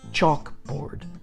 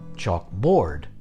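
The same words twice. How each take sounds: First: The stress is on the first syllable. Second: The stress is on the second syllable. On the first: The speaker calls it right. "we put the emphasis on the first syllable" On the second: The speaker calls it wrong. "which would put the stress on the second"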